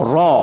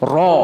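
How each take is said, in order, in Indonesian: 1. Huruf ini dibaca tebal dan berat. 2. Huruf ini dibaca tebal dan berat.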